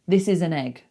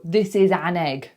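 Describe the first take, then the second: First: The word 'an' has a reduced schwa vowel. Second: The word 'an' has a full vowel. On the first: The speaker calls it right. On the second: The speaker calls it wrong.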